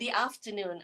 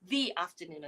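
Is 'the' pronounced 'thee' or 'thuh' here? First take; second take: thuh; thee. First: 'The' is said with a short 'thuh' vowel. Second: 'The' is said with a long 'thee' vowel. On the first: The speaker calls it wrong. "I'm sorry" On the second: The speaker calls it right. "is a vowel sound, so the T H E becomes the"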